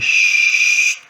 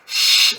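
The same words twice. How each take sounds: First: The hiss is made with lips rounded forward. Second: The hiss is made with lips spread back. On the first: This is the French sound. "on a les lèvres poussées en avant et on fait ch" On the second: This is the Spanish sound. "pour eux, le che, c'est plus un ch ... les lèvres sont tirées en arrière"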